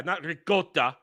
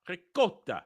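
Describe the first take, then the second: First: "ricotta" said as ri-GO-ta; wrong G sound. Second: "Ricotta" with a K, not a G; correct C sound. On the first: Mocking the kid's ricotta, with a wrong G. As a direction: put a hard G in "ricotta". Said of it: "There's no G in there". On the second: Showing the right ricotta, C not G. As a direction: say "Ricotta" as ri-KO-ta, quieter. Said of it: "The C is a little softer". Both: Shown as a demonstration.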